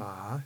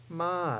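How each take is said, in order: First: The pitch rises from low to high. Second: The pitch falls from high to low. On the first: "ma is the rising tone" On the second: "ma is the drop tone"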